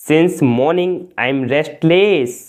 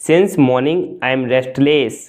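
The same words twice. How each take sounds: First: Slow, careful model sentence; slow and clear. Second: Said in the usual way. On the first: Shown as a demonstration. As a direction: give each word room. (धीरे और साफ़) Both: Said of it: "सुबह से मैं बेचैन हूँ।".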